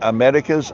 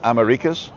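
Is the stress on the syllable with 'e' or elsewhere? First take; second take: e syllable; elsewhere. First: The stress falls on the syllable with 'e'. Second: The stress falls on a different syllable. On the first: The speaker calls it right. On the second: The speaker calls it wrong.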